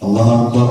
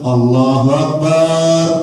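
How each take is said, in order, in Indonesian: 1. Suku kata terakhir "bar" dibaca pendek. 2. Suku kata terakhir "bar" dibaca panjang. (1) "nah gitu" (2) "tidak boleh dipanjangkan barnya"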